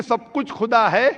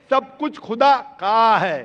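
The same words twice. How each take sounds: First: Said in the usual way. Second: "का" set apart and punched; stress on possessive. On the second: Shown as a demonstration. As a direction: hit "का" hard and stretch it.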